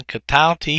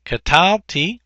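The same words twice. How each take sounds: First: Said in the usual way. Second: Katalti stressed ka-TAL-ti, a touch higher and drawn out; accent on the second syllable. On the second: Shown as a demonstration. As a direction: lean on the middle of Katalti. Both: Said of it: "the accent's over the second syllable".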